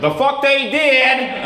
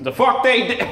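First: High, loud, drawn-out Southern holler; attempted Southern accent. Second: Put-on second go at a high, loud Southern accent; attempted Southern accent. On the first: Comic as a guy in the audience objecting, bad Southern accent. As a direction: shout it slowly in an exaggerated Southern accent. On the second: Comic retrying an audience guy's line, bad Southern accent. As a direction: shout it in a mock Southern accent, a bit quicker. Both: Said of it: "I can't do a Southern accent".

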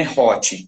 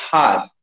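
First: Hot with an open Portuguese O; wrong hot. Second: Hot with the O blended into A; correct hot. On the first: Teacher showing the wrong hot. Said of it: "que nem esse O com acento agudo". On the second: Teacher modelling the right hot vowel. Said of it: "um O misturado com A". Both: Shown as a demonstration.

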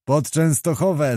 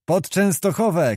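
First: Understated echo of a rallying cry; narrated shout of all, barely raised; mild group cry. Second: Lone man's rallying call, held back in volume; mild narrated cry. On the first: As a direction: answer the call as the whole company, lightly voiced. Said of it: "zawołali wszyscy". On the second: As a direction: call out the battle destination in a raised pitch. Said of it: "krzyknął Roch". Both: A narrator's reading.

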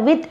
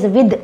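First: With ending in a hard t; the common Indian with; wrong with. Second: Right version. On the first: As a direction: mistaken version. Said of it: "we pronounce it as with". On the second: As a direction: model the correct with. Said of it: "it is not with". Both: Shown as a demonstration.

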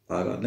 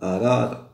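First: أراد clipped to "rad", dropping the opening hamza; wrong pronunciation. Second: أراد with a clear glottal stop on the opening a: "a-rada"; correct hamza. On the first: Teacher shows pupils the wrong way: أراد slurred to "rad". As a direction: say أراد as just "rad", no glottal stop at the start. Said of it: "لا نقول أراد". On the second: Teacher shows pupils the right way: أراد with a crisp opening hamza. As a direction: sound the hamza of أراد firmly, all three syllables. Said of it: "تكتب وتقرأ". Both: Shown as a demonstration.

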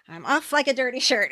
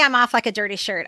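First: Lightly acted movie quip, pitched up; Ducky quote. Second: Said in the usual way. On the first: Fan quoting Ducky's exit line to co-host, lightly acted. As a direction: toss it out like Ducky's catchphrase. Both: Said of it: "unless you go like this".

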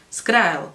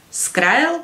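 First: A distracted, understated reply; name it absently, voice falling; absent-minded. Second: Higher, rising questioning echo; incredulous echo with a rising end; interrupting query. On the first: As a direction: answer as if your thoughts are elsewhere. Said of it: "odvětil roztržitě". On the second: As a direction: cut in, throwing the word back as a question. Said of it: "přerušil ho Jake". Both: A narrator's reading.

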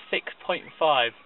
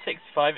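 First: Slower "six point five", with "point" included clearly; clarifying the decimal. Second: Said in the usual way. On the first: Shown as a demonstration. Guest clarifying the score, a slow, clear "six point five". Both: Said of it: "That's not six five".

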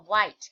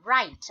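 First: "white" starting with a W glide; mistaken W sound. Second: "write" starting straight on the R; silent W. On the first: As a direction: say "white" with W in place of R. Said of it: "เด็กๆบางคนชอบอ่ะ ตัวนี้ว่า". (อ่าน "white" ขึ้นต้นด้วยเสียง ว แบบที่เด็กอ่านผิด) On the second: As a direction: say "write" with an R onset, no W. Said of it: "ออกเสียงตั้งแต่ตัว R เป็นต้นไป". (อ่าน "write" เริ่มที่เสียง R ไม่ออกเสียง W) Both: Shown as a demonstration.

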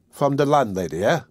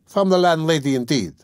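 First: Mildly slow, questioning. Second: Higher, emphatic echo of the question; mild retort. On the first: A narrator's reading. Sickly lodger just woken by the servant, asking slowly. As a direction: ask it as a slightly sluggish query. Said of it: "he asked slowly". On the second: Acted. Servant answering the woken lodger, with a mild retort. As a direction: throw the words back with a falling tune.

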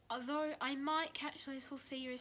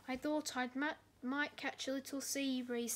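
First: Soft wistful sigh; longing quietly for the sea; sad. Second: Sad. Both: A narrator's reading. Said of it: "said Salty sadly".

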